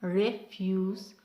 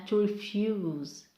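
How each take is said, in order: First: "Refuse" as a noun, first syllable stressed. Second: Slow "to refuse", second syllable long; verb stress on second syllable. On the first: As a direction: say "Refuse" as REF-yoos. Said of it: "first syllable for nouns is longer". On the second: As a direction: say "to refuse" as to re-FYOOZ. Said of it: "for verbs is the second syllable". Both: Shown as a demonstration.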